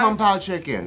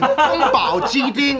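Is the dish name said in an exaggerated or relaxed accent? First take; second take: relaxed; exaggerated. First: The dish name has a relaxed, plain American accent. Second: The dish name has an exaggerated, emphatic native-style accent. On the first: Not making a point of heritage pronunciation. "I keep it chill" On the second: Showing off a heritage pronunciation. "I don't say kung pao chicken like that"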